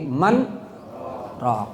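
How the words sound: A brief stop separates the two words. The speaker calls it right. "tapi manraq"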